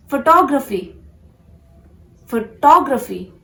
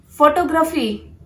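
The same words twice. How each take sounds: First: "photography" as fuh-TAW-gruh-fee; "photography" with second-syllable stress, louder; correct photography. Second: "photography" as PHO-to-gra-fee; "photography" built on the word photo; mispronounced photography. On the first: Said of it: "focus on the second syllable". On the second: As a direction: stress the first syllable of "photography". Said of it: "this is not photography". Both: Shown as a demonstration.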